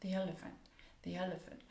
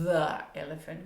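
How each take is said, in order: First: "The elephant" with a soft th, tongue between teeth. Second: "the elephant" said with a buzzing z; the wrongly buzzed z in "the elephant"; wrong z sound. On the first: Teacher models the soft th in "the elephant". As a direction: breathe a gentle th into "elephant". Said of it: "So it's a soft th". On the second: Teacher shows the wrong z in "the elephant". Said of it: "we don't stick our tongue out and go z". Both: Shown as a demonstration.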